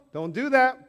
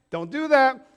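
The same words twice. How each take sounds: The two takes are said the same way.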